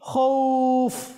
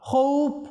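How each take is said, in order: First: The word ends in an f sound. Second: The word ends in a b sound. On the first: The speaker calls it right. "তাহলে বলতে হবে কি খৌফ" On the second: The speaker calls it wrong. "খৌফ বলবেন না"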